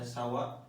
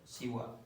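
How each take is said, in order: First: The first vowel is an a sound. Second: The first vowel is an i sound. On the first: The speaker calls it right. "lebih fasih dibaca fathah sawa" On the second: The speaker calls it wrong. "bisa dibaca siwa"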